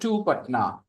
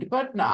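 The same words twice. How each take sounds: First: The word 'to' is full and clearly pronounced. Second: The word 'to' is reduced and unstressed. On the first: The speaker calls it wrong. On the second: The speaker calls it right. "I'm not using the strong pronunciation"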